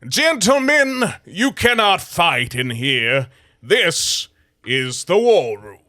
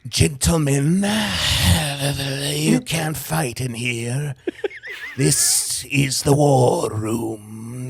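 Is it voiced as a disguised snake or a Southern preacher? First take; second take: Southern preacher; disguised snake. First: It is voiced like a classic Southern preacher. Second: It is voiced like a snake posing as a person.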